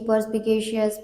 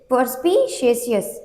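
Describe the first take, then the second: First: The middle consonant is a 'k' sound. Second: The middle consonant is a 'sh' sound. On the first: The speaker calls it right. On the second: The speaker calls it wrong.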